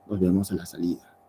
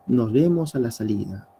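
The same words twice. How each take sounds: First: Threatening tone. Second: A light, friendly see-you-later. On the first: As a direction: lower and faster, a veiled threat. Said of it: "pero también hay un tono de amenaza". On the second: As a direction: say it like a casual goodbye to a friend. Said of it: "Un tono de amabilidad". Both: Shown as a demonstration.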